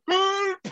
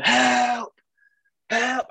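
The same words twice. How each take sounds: First: Put-on very high squealed German-accented cry; mock panicked yelp in a German accent; German friend screaming. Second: High, loud drawn-out cry for help; shouting for rescue in a retelling; mock scream. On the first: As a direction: imitate a scared German friend's shriek, comically. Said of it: "he's got a German accent". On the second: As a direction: call out for a lifeguard, pitched high. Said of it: "I started screaming".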